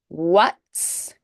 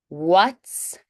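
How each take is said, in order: No difference in how they are said.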